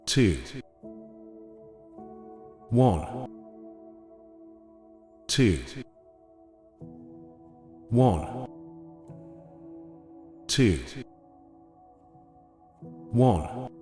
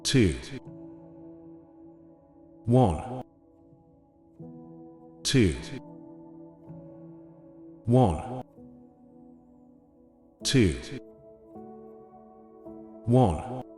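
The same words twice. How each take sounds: The two takes are said the same way.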